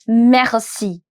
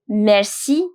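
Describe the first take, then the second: First: The r is a French throaty sound. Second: The r is a plain, non-French sound. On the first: "that accent, that air" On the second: "basic pronunciation"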